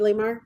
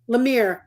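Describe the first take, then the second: First: The last syllable sounds like 'mar'. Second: The last syllable sounds like 'mire'. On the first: The speaker calls it wrong. "did I say that correctly" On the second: The speaker calls it right. "It's Lemire"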